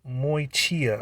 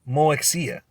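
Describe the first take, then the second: First: The middle consonant sounds like 'k'. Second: The middle consonant sounds like 'ks'. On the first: The speaker calls it right. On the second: The speaker calls it wrong.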